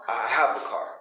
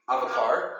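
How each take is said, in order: First: The word have is said in full. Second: The word have is contracted and run together. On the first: The speaker calls it right. "We say what?" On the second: The speaker calls it wrong. "we never say have and contract I have"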